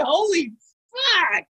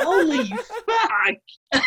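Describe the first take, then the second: First: Said in the usual way. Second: Slow, drawn out through laughter; laughing exclamation. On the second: Real, not acted. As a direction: stretch it while cracking up. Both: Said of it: "Who has tickets on himself there?".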